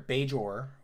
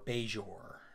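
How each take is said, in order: First: The middle consonant has no buzzing 'zh' sound. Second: The middle consonant is a buzzing 'zh' sound.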